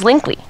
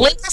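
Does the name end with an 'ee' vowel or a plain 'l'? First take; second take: ee vowel; plain l. First: The name ends with an 'ee' vowel sound. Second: The name ends with a plain 'l' sound. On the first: The speaker calls it right. "you change it L E to say Lee. It's Linkley" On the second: The speaker calls it wrong. "Linkle sounds really, really horribly dumb"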